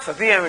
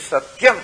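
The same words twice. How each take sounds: First: "Sati Yam" split as sa-ti-yam; three-syllable Sati Yam. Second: "Satyam" run together as sat-yam; two-syllable Satyam. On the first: Teacher showing how the word is not said, "Sati Yam" in three syllables. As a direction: say "Sati Yam" with a full ti before yam. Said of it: "it is not Sati Yam". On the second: Teacher correcting the split reading, "Satyam" in two syllables. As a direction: join t straight onto y in "Satyam". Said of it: "it is Satyam". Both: Shown as a demonstration.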